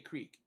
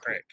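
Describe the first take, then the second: First: The vowel is a long 'ee' sound. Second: The vowel is a short 'i' sound. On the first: This is not how people say it in the speaker's home region. "we don't say creek" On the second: This is how people say it in the speaker's home region. "We call it a crick"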